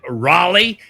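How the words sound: The name is said with an American pronunciation. "I think the Americans say it Raleigh"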